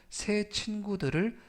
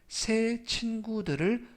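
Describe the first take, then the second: The two takes are said the same way.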